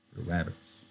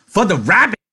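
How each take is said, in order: First: Much softer, subdued repeat; quiet echo. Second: Very high, loud, gleeful; excited shout. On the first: George repeats Lenny's shout quietly. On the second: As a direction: burst out like a delighted child. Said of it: "Lenny shouted". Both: A narrator's reading.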